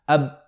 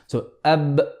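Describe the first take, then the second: First: The final b is held without release. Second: The final b is released with a bounce. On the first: The speaker calls it wrong. "I'm going to try to say the ba without opening my lips afterwards" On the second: The speaker calls it right. "then the sound gets pronounced"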